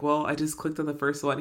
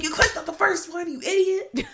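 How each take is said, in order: First: Said in the usual way. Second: High-pitched incredulous scolding, half laughing; mock outrage. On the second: Scolding a friend who bought an essay, mock outraged and high. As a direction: squeal it in disbelief at a foolish friend.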